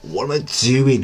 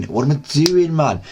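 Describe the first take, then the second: First: Slow, disbelieving question to yourself; dragged-out self-mocking what am I doing; mock disbelief. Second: Exasperated mock cry. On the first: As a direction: ask yourself what you are doing, slowly and a bit higher. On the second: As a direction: throw the question up in mock despair. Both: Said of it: "you just look at yourself and go".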